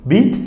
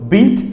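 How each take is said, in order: No difference in how they are said.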